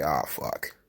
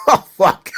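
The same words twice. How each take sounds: First: Very low, soft, defeated groan; low muttered curse. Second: A higher, louder repeat of the curse. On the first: Host reacting quietly to the Bearcat news. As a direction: drop low and quiet in dismay. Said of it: "And I was like". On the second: Host repeating the curse louder, half laughing. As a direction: punch it out in amused dismay. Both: Retold or imitated.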